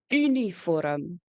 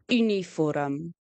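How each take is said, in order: No difference in how they are said.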